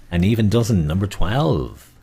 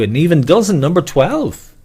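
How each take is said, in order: First: Said in the usual way. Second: Higher, louder bingo call; bingo caller. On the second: Shown as a demonstration. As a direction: sing out the number to the hall. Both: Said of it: "call repeated".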